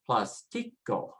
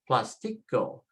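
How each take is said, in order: First: The stress is on the second syllable. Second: The same.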